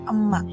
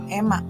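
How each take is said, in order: First: The first vowel is a schwa sound. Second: The first vowel is a clear e sound. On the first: The speaker calls it right. "tapi emak" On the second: The speaker calls it wrong. "bukan emak"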